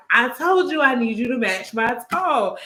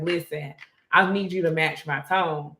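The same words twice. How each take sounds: First: Higher-pitched, exasperated retelling; mock outburst after staying calm; losing it. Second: Imitating someone staying calm. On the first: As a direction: imitate someone finally losing patience. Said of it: "And then she just lost it". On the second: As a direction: keep it even and controlled. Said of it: "she was so calm the whole time".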